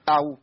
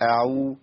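First: أعو with the ayn chopped off; ayn cut short. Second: أعو with the ayn allowed to flow; ayn given its time. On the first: Teacher repeats the error, clipped ayn in أعو. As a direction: chop أعو off abruptly at the ayn. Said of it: "أنا قطعت في العين". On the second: Teacher corrects the error, full ayn in أعو. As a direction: let the ayn in أعو sound fully. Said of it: "هي أصلًا إيه؟". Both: Shown as a demonstration.

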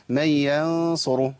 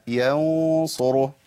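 First: "من ينصره" with a light, front-vowelled nasal before Sad; wrongly thin ghunna. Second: "ينصره" slow, the held nasal darkened toward the Sad; heavy ghunna. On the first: Teacher showing the error, thin ghunna. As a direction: keep the held n of "ينصره" thin. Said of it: "ما ينفعش أقول". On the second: Teacher correcting the error, heavy ghunna. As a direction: thicken the long n in "ينصره". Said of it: "ما بعدها تفخيما". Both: Shown as a demonstration.

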